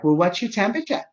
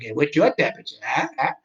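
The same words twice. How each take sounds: First: High-pitched imitation of a Massachusetts woman; Massachusetts accent. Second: Put-on muddled echo of her accented question; confused echo. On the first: Phone woman asks confused patient, imitated Massachusetts accent. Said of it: "she has a Massachusetts accent". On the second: Confused patient repeats the woman's question, befuddled echo. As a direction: echo it back, lost, with questioning huhs. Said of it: "I'm not joking with her".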